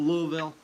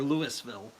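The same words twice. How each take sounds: First: It uses the local Kentucky pronunciation of the name. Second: It uses the outsider pronunciation of the name. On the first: This is how people who live there say it. "They call it Louisville" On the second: This is how people from elsewhere say it. "We would call it Louisville"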